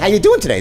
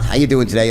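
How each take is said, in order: First: It is said warmly, with real enthusiasm. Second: It is said flatly, as a routine greeting. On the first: The speaker genuinely wants to know. The speaker calls it right. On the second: The speaker does not care about the answer. The speaker calls it wrong.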